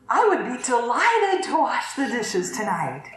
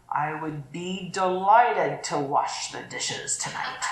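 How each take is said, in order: First: Bright, willing offer; mean it gladly; cheerful genuine offer; sincere tone. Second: Slow, sour put-upon offer; reluctant sarcastic offer; grudging tone. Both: Shown as a demonstration. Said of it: "tend to hear the tone of our voice".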